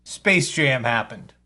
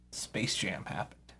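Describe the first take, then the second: First: Said in the usual way. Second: Hushed repeat. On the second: Acted. Repeats the phrase, then whispers.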